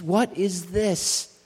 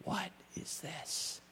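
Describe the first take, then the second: First: Slow and loud, higher, a long drawn-out WHAT; booming question. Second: Slow, soft, breathy whisper; whispered question. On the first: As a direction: call the question out to the whole room. Rising refrain of the sermon. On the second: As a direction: let it fall to a hush. Hushed repeat of the refrain. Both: Acted.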